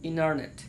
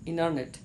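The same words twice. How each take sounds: The two takes are said the same way.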